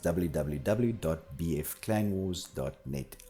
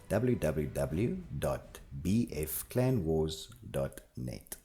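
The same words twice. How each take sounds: First: It is said at a normal speaking pace. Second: It is said slowly and deliberately.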